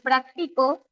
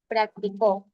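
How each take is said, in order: First: The stress is on the middle syllable. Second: The stress is on the last syllable.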